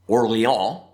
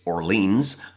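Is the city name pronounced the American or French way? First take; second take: French; American. First: The name is said with a French pronunciation. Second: The name is said with an American pronunciation.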